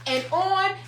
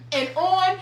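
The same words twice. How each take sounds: The two takes are said the same way.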